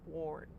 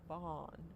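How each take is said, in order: First: The vowel is an 'or' sound. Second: The vowel is an open 'ah' sound. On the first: The speaker calls it wrong. "you would never say the sound or when you're singing" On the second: The speaker calls it right. "You normally say it as A H"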